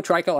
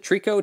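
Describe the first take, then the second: First: "Trico" as TRY-koh, falling; pronunciation. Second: "Trico" as TREE-koh with a questioning rise; "Trico" said TREE-koh, rising; pronunciation. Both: Shown as a demonstration. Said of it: "Or is it Trico?".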